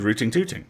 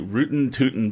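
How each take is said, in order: First: The final g sounds are pronounced. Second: The final g sounds are dropped. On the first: The speaker calls it wrong. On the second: The speaker calls it right.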